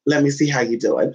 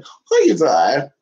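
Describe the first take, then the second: First: Said in the usual way. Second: Stretched cooing question to a pet; slow sing-song to the dog; slow drawn-out coo. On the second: Acted.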